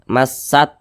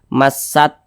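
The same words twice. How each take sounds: The two takes are said the same way.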